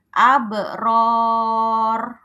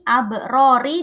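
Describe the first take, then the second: First: The final ra is stopped with no vowel. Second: The final ra is followed by an i vowel. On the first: The reader stops at the end of the verse. "kalau dia berhenti di sini" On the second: The reader keeps going without stopping. "aslinya berharokat kasroh"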